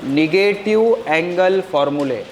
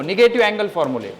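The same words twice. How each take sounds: First: Heading drawn out word by word; slow dictation. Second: Said in the usual way. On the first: Shown as a demonstration. Teacher to pupils writing the heading, slow dictation. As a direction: dictate slowly so pupils can write.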